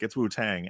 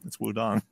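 First: The second syllable begins with a 't' sound. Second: The second syllable begins with a 'd' sound. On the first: This is the familiar English way of saying the name. "you can correct her and be like, it's Wu-Tang" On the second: This follows the original Chinese pronunciation. "because that's the correct pronunciation"

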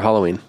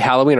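First: The first vowel sounds like in 'hollow'. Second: The first vowel sounds like in 'pal'.

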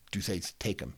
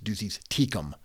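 First: Tecum is said like English 'take 'em'. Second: Tecum is not said like 'take 'em'. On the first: The speaker calls it wrong. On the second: The speaker calls it right. "It's Ducey's Tecum"

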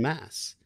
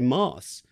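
First: The word is said in an ordinary accent. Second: The word is said in an upper-class accent. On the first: "rather than mass" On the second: "they would always say mass"

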